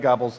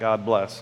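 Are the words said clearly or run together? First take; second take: run together; clearly. First: The words are run together quickly, like gobbles. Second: The two words are said clearly and separately. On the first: The speaker calls it wrong. "we'd say it fast" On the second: The speaker calls it right. "not God bless"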